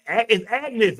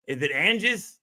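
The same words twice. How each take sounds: First: "Agnes" with a hard G before the N; corrected name. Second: Name read as "Angus", with the N before the G; wrong "Angus", A-N-G-U-S order; misread name. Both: Shown as a demonstration. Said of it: "I'm saying it wrong".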